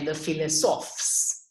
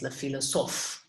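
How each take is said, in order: First: The final S sound is pronounced. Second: The final S sound is silent. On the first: "If there were an E here after the S, it would say le philosophes" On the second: "there's an S here, it's silent"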